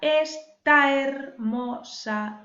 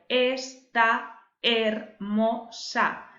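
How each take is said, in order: First: The two vowels merge into one syllable. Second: The two vowels fall in separate syllables. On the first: "va ligada a la primera de hermosa" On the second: "si tuviésemos que dividir esto en sílabas normales"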